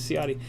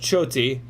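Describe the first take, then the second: First: The surname is said with American pronunciation. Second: The surname is said with Italian pronunciation. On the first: This is how it is said in everyday American life. "so I pronounce it the cheeseburger way" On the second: This is the name's original, proper form. "it should be pronounced Choti. That's the proper Italian pronunciation"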